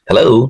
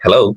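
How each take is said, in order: First: The final vowel is drawn out, a British accent. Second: The final vowel is short, an American accent. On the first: "একজন British সে হচ্ছে এই ও টাকে টান দিবে" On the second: "একজন American হয়তো আপনাকে হ্যালো বলবে এভাবে"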